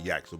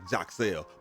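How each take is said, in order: First: The name starts with a Y sound. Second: The name starts with a J-like sound. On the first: This is the version most people know. The speaker calls it wrong. "that's what more people are familiar with" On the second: This is how the name is said in Dominican heritage. The speaker calls it right. "the correct pronunciation of his name is more like"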